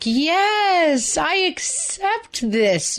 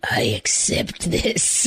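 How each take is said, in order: First: It is said in a cheerful, happy tone. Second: It is said in a grumpy, gloomy tone.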